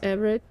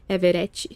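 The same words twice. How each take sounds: First: It is said English-style, with the E skipped. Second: It is said with a Portuguese accent. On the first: "people tend to skip the E. Even I sometimes pronounce my name" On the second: "how it would be in Portuguese? And my accent in Portuguese"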